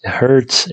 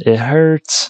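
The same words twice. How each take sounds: First: Said in the usual way. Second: Higher, hammed-up whimper of pain; mock pained whine. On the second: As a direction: whine it like a wounded puppy. Repeats it hurts, mock pain.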